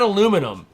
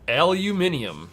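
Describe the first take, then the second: First: It is said the American way. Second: It is said the British way. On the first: The speaker calls it wrong. "It's not aluminum" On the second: The speaker calls it right. "Rude's not from America. It is aluminium"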